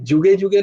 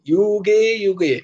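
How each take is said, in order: First: The word begins with a j sound. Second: The word begins with a y sound. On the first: The speaker calls it wrong. "যুগে যুগে নয়" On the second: The speaker calls it right. "ইউ"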